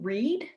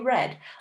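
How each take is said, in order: First: The vowel is long, rhyming with 'need'. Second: The vowel is short, rhyming with 'bed'. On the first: The action happens habitually or now. "like simple present" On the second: The action happened in the past. "because we're making it past tense"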